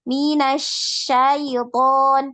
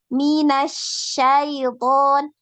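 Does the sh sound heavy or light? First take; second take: light; light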